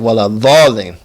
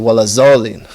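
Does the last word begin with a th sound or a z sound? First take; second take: th; z. First: The last word begins with a th sound. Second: The last word begins with a z sound. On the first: "you have people say wala dhalin" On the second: "people will say wala zalin"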